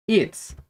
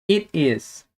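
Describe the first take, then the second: First: "it's" as one short syllable; contracted form. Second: "It is" as two separate words; full form. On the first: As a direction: clip it together into "it's". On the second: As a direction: keep "It is" uncontracted. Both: Shown as a demonstration. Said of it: "podemos falar também é sobre as contrações".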